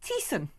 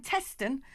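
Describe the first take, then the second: First: Teeson with long ee, no middle t; Teeson, the local form of Teston; local pronunciation. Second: Teston as written, TEST-un; pronounced as spelt. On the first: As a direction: say Teeson as TEE-sun. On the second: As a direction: say Teston with short e and the t. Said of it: "pronounced Teeson". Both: Shown as a demonstration.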